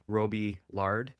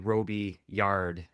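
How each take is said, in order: First: The surname is said the English way. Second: The surname mixes English and French sounds. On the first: It is how the English-speaking side says it. "my dad's side would pronounce it [name]" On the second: It is how he says it in everyday life. "I typically do the, the two combined"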